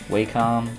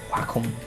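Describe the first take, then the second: First: The first syllable does not sound like 'whack'. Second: The first syllable sounds like 'whack'. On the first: The speaker calls it wrong. "It's not" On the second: The speaker calls it right. "Like you're gonna whack 'em"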